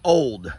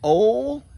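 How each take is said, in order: First: The final d sound is pronounced. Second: The final d sound is dropped. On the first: The speaker calls it wrong. "not old" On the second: The speaker calls it right. "as in O L"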